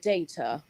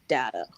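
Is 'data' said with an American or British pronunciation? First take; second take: British; American. First: The word has a British pronunciation. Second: The word has an American pronunciation.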